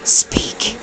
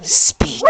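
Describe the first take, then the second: First: Softly whispered one-word command. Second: Higher, crisp command to the dog; sharp command. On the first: Real, not acted. Whispering to the dog holding a hot dog. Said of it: "I'm whispering to her". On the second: Shown as a demonstration. Showing Terry how to give the dog the speak command. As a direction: bark it out like a dog trainer. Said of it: "all you gotta do is hold up the hot dog and just go".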